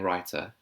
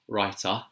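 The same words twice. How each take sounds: First: It is said in a received pronunciation accent. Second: It is said in a London accent. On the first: "in her received pronunciation" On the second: "So the London accent would be writer"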